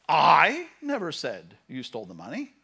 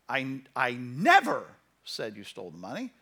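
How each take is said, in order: First: The stress is on the word I. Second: The stress is on the word never.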